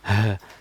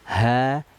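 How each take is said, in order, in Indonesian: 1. Keluarnya berat dari dada. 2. Keluarnya ringan dari bagian bawah tenggorokan. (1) "Tidak boleh terlampau berat ya, keluarnya dari dada nggak boleh, jangan" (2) "keluarnya dari pita suara tenggorokan bawah"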